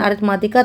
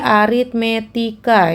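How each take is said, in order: First: The vowel after 'arit-' sounds like 'a'. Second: The vowel after 'arit-' sounds like 'e'. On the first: The speaker calls it wrong. "bukan aritmatika" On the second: The speaker calls it right. "tapi aritmetika"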